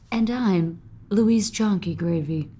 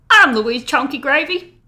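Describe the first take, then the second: First: It is said in a calmer, toned-down way. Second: It is said with over-the-top enthusiasm.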